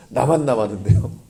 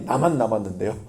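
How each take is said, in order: First: Laughing repeat. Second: Elijah's complaint. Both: Retold or imitated. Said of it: "엘리야가 늘 하는 말이".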